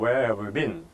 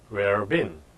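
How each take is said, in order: First: 'Have you' is pronounced clearly and fully. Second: 'Have you' is reduced almost to nothing.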